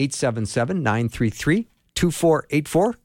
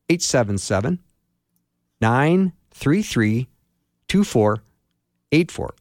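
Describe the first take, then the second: First: The number is read at normal speed. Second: The number is read more slowly.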